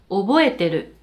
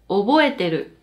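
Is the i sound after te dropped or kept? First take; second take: dropped; dropped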